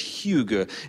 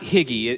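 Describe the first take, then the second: First: The word is said to rhyme with 'beluga'. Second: The word is said like 'higgy'. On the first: The speaker calls it right. "It rhymes with beluga" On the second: The speaker calls it wrong. "it's not higgy"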